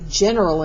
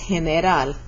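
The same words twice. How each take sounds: First: The first sound is not an H sound. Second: The first sound is an H-like sound. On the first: "we say general in English" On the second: "In Spanish, it says general"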